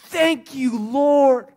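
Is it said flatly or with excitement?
excitement. It is said with fervent excitement.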